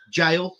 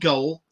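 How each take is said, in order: First: The word is said like 'jail'. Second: The word is said like 'goal'. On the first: The speaker calls it right. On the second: The speaker calls it wrong. "not Goal"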